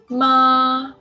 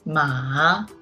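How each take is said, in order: First: The pitch stays high and level. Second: The pitch dips low, then rises. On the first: "Ma is a flat tongue" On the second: "The third tongue is a low rising tongue"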